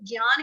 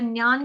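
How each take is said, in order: First: It starts with a 'g' sound. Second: It starts with an 'n'-like sound. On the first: "हम लोग ज्ञान कहते हैं तो हम लोग आधा ग लगाएंगे" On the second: "अगर ज्ञान कहते हैं तो आधा न लगा दो"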